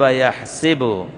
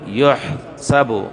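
First: The first vowel of the verb is a. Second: The first vowel of the verb is u. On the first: The verb is in the active form. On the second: The verb is in the passive form.

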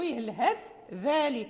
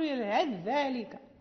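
First: The th is kept separate from the following dh. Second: The th is merged into the following dh. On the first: The speaker calls it right. "إذا لم نكن نقرأ بالإدغام نقرأ الهث ذلك" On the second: The speaker calls it wrong. "لا نقول الهث ذلك"

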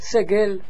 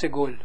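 First: The last syllable has an e vowel. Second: The last syllable has an o vowel. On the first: This is how another source names it. The speaker calls it wrong. "hij noemt het segel" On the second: This is the preferred way to name it. The speaker calls it right. "Wij moeten het noemen anders segol"

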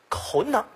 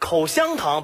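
First: The middle syllable is swallowed into the word. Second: Every syllable is pronounced clearly and fully.

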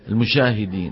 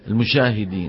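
First: The middle consonant is mixed with sh. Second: The middle consonant is mixed with sh.

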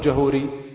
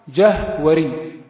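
First: The middle is said as a long u vowel. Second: The middle is said with a w consonant. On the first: The speaker calls it wrong. "ولا تقل جهوري" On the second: The speaker calls it right. "إنما هو جهوري"

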